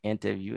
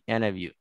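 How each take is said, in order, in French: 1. Chaque son du mot est prononcé clairement. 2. Certains sons du mot sont avalés. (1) "vous n'avez pas entendu interview" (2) "il a dit interview ... des éléments qui sont généralement avalés"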